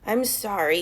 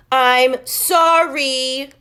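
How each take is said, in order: First: Nice voice. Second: Very loud, long drawn-out shout; yelled apology. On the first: Max apologizing to Chloe nicely, gentle voice. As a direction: say it gently this time. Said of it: "in a nice voice". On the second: Max yelling sorry at Chloe, loud drawn shout. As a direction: bellow the apology in her face. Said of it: "he yelled in her face". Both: A narrator's reading.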